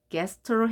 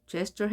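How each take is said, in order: First: "gesture" begun with a hard g, as in get; hard-g reading. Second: "gesture" begun with a j sound; soft-g reading. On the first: Teacher puzzles over a new word, "gesture" with hard g. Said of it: "gesture 해야 될지 궁금하시죠". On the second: Teacher offers the other reading, "gesture" with soft g. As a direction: say "gesture" with g as in gem. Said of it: "G로 발음됐고요". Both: Shown as a demonstration.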